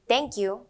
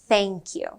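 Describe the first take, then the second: First: It begins with a hard t sound. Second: It begins with a soft th sound. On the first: The speaker calls it wrong. "let's avoid saying" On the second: The speaker calls it right. "when we mean"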